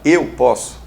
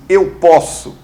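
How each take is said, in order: First: The verb posso is left unstressed. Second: The verb posso is stressed strongly. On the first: The speaker calls it right. "Geralmente o verbo não se inflexiona" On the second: The speaker calls it wrong. "ao invés de você assim"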